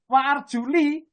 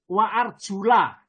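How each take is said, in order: First: The word ends with an 'i' vowel. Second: The word ends with an 'a' vowel. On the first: The feet are only wiped in ablution. "Apabila dibaca li" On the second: The feet must be washed in ablution. "bacaan nasab"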